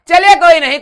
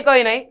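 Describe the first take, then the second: First: Loud, high "चलिए कोई नहीं" with the stress on "चलिए"; cheerful call. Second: Said in the usual way. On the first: Real, not acted. Teacher consoling students who are pretending to cry, bright loud call. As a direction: brush it off brightly and loudly.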